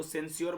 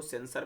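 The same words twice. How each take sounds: First: सेंस्योर with a "-syor" ending; wrong pronunciation. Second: सेंसर with a plain "-sar" ending; correct pronunciation. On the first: Teacher warning students off a misreading, सेंस्योर said with "-syor". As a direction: say सेंस्योर, ending in a "yor" glide. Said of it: "सेंस्योर मत पढ़िएगा". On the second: Teacher showing students the reading, सेंसर said as "sen-sar". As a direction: say सेंसर in two syllables, no "y" glide. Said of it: "इसको सेंसर पढ़ा जाता है". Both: Shown as a demonstration.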